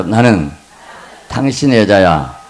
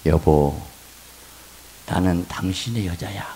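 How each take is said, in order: First: Louder line for the congregation to repeat; loud leading line. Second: Low, soft loving words; tender wife's line. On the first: Pastor leading the congregation to repeat a line. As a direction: lead them out loud. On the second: Pastor demonstrating a tender line for wives. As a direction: say it sweetly to him. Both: Shown as a demonstration. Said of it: "한번 따라서".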